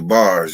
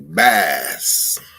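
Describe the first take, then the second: First: The R sound after the vowel is pronounced. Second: The R sound after the vowel is dropped. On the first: "You don't say bars" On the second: "You say bass"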